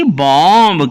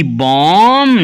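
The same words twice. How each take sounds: First: बॉम्ब with the final B sounded; गलत उच्चारण. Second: बॉम्ब said 'bom', ending on a long M; silent B. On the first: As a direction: release a clear B at the end of बॉम्ब. (बॉम्ब में आखिरी 'ब' बोलकर गलत उच्चारण) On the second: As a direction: hum out the M of बॉम्ब, no final B. (बॉम्ब में आखिरी B silent, 'बॉम') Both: Shown as a demonstration. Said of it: "ना कि बॉम्ब".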